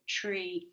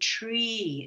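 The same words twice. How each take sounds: First: The vowel is a short e sound. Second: The vowel is a long e sound. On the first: The speaker calls it wrong. "We don't say tree, eh, eh" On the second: The speaker calls it right. "We say tree. It's a long E sound"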